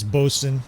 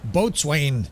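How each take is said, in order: First: The word is said as reduced bo-sun. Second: The word is said as full boat-swain. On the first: The speaker calls it right. "It's, it's Bosun" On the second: The speaker calls it wrong. "I forgot to pronounce it. The first episode or two of the D L C, I was going"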